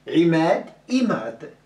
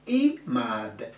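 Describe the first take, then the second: First: Imad with a pressed throat I; throaty Imad. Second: Said in the usual way. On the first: Shown as a demonstration. Teacher correcting Imad pronunciation. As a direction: start Imad with the throat sound. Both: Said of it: "Il n'y a pas de I".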